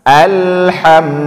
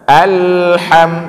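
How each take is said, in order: Both takes have the same delivery.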